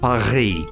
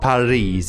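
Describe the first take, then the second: First: The R is a French R. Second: The R is not a French R. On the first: The speaker calls it right. "It's Paris. ... That's the French R" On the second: The speaker calls it wrong. "It's not Paris"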